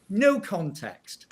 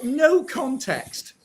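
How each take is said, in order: First: No context slow, each word weighted; slow emphatic repeat. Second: No context dragged out slowly, stressed; emphatic repeat. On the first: Repeating it to hammer the media, slowly. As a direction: drag out No context. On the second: Slow stressed jab at the media, no context. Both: Shown as a demonstration.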